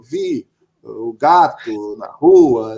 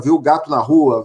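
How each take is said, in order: First: "Vi o gato na rua" said slowly and lower, as a flat statement; falling statement on "Vi o gato na rua"; statement tune. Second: "Viu o gato na rua?" asked as a question; questioning intonation on "Viu o gato na rua?"; question tune. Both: Shown as a demonstration. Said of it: "qual é a entonação que você vai usar".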